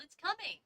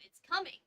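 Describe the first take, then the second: First: High alarmed warning; urgent warning from the trees; yell. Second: Higher, louder warning yell; mild mock yell of alarm. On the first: Acted. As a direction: call it out, worried. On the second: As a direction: shout the warning up at him. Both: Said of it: "Tobias yelled".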